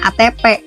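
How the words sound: The last letter is said with a P sound.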